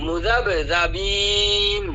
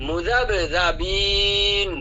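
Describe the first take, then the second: Both takes have the same delivery.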